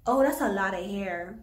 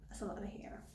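First: Said in the usual way. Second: Breathless whisper, barely audible. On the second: Real, not acted. Repeating it to herself over the cut hair, whispered. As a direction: whisper it to yourself in disbelief.

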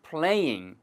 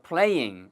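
First: "playing" said as play-ing, ing sounded twice; playing with double ing. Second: "playing" said as 플레이잉, both syllables clear; playing with double ing. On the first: Teacher showing students "playing" as 플레이잉. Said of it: "잉을 두 번 발음하는 것처럼". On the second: Teacher repeating "playing" for students as 플레이잉. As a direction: say "playing" as play plus ing. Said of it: "플레이잉이에요". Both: Shown as a demonstration.

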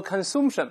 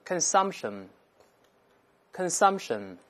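First: Consumption with an oo vowel, said as the error; wrong pronunciation. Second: Consumption with an ah vowel; correct pronunciation. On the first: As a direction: show the wrong take, kən-SOOMP-shən. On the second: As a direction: say consumption as kən-SAHMP-shən. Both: Shown as a demonstration. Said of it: "不对哦，变成啊".

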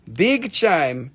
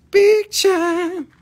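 First: Said in the usual way. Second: High, loud sung catchphrase; sung, belt the jingle out. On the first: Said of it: "jingle said flat before singing". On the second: Pretend. Sung, seller belting his jingle after saying it flat.

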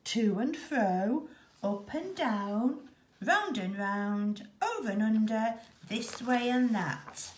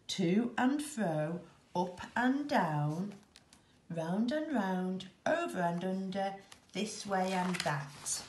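First: Rhythmic scurrying. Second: Weary stumbling. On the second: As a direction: drag each phrase wearily. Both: A narrator's reading.

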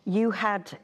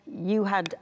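Both takes have the same delivery.

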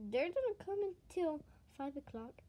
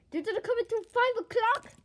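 First: Said in the usual way. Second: Loud and high, rising on five; louder, higher. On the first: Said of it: "You got a voice crack?". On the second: Acted. Friend repeats it to Bonnie, loud and high.

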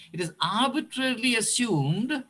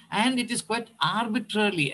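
First: Arbitrarily lifted higher and pressed hard; stress on arbitrarily. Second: Said in the usual way. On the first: Shown as a demonstration. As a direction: lean into the word arbitrarily, spelling it out. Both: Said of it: "I want to emphasize the word arbitrarily".

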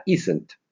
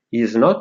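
First: "isn't" with the o of not dropped; forma contratta. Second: Said in the usual way. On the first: Shown as a demonstration. ("isn't" contratto, senza o) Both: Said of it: "is not diventa isn't".

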